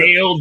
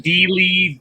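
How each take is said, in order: First: The name is said to rhyme with 'Dale'. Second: The name is said like 'Dealey', two syllables. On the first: "I get so many different ones" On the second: "I get so many different ones"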